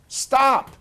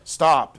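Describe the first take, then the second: First: It is said in a higher, louder voice. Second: It is said in a lower, quieter voice. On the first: The speaker calls it wrong. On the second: The speaker calls it right.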